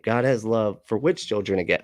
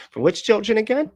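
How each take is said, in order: First: Said in the usual way. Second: Put-on high rising question on "children again"; "which children again" pitched way up, ending on a rise; questioning inflection. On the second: Shown as a demonstration. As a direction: lift "again" sharply into an incredulous question. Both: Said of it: "There's the inflection".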